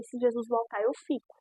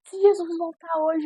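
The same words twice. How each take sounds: First: Said in the usual way. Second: High, louder warning with JESUS stressed; pleading pastor. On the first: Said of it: "eu falei". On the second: Retold or imitated. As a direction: urge her as the tearful pastor, leaning on Jesus. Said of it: "Ela falou assim". (pastora aflita alertando, voz aguda)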